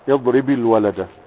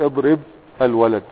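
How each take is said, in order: First: The first word ends in i, linking smoothly. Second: The first word ends silent, then a pause. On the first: "تكسر الاول فتقول اضرب الولد" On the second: "تقول اضرب الولد وتقف"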